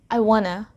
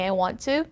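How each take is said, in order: First: 'Want to' is blended into one reduced 'wanna'. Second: Every syllable of 'want to' is fully pronounced. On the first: "native speakers say" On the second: "instead of saying"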